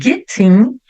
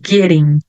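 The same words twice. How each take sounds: First: It is said with a British clear T. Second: It is said with an American flapped T.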